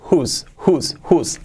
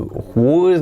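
First: The word sounds like 'who' with an added s. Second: The word is sounded out following its spelling. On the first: The speaker calls it right. "Así como who, pero con una S" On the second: The speaker calls it wrong. "no es ni whose ni nada"

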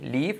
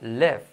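First: The vowel sounds like a Spanish 'i'. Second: The vowel sounds like a Spanish 'e'. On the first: The speaker calls it wrong. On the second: The speaker calls it right. "como una E"

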